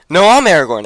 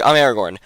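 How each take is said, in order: First: The word I'm pushed up, higher and louder; mock indignant No, I'm Aragorn; insistent I'm. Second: Said in the usual way. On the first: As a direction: stress I'm hard to contradict. Boromirs arguing over identity.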